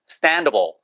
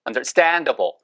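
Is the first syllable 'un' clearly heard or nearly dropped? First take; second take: nearly dropped; clearly heard. First: The first syllable is nearly dropped. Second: The first syllable is pronounced fully and clearly. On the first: "standable 이렇게 들린단 말이에요" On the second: "understandable이 아니고"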